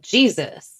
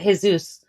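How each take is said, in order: First: The name is said the English way. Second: The name is said the Spanish way. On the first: "she keeps saying Jesus" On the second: "People who speak Spanish, generally, they generally pronounce it Jesus"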